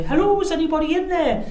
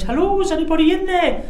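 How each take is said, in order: First: Second mock intruder call. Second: High, loud put-on voice calling into a tent; a hammed-up stranger calling out; mock intruder call. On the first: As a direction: try the stranger's call a second way. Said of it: "They probably wouldn't have talked like that". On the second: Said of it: "seen the tent knocked and went".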